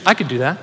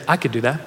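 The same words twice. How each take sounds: First: Mean every word of "I could do that"; with conviction. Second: Said in the usual way. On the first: Shown as a demonstration. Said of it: "say it with conviction". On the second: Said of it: "Look at the person next to you and say".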